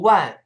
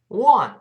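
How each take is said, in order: First: It is said without that rounded nasal shape. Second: It starts with rounded lips and ends nasally. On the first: The speaker calls it wrong. "而不是 one，这个声音往后走一点啊" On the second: The speaker calls it right. "是 wa，双唇碰撞再分开，然后发 an，再走鼻音 one"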